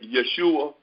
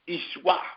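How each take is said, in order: First: The name starts with a y sound. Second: The name starts with an ee sound. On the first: The speaker calls it wrong. "that's not how it's pronounced" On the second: The speaker calls it right. "actually it is pronounced Ishwa"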